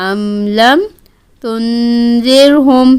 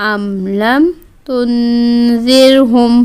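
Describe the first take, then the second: No difference in how they are said.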